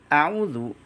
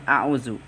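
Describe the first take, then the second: First: The consonant is a voiced 'th' sound, tongue on teeth. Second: The consonant is a buzzing 'z' sound. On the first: The speaker calls it right. "Huruf zal pada lafaz a'udzu" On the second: The speaker calls it wrong. "sering dibaca dengan a'udzu"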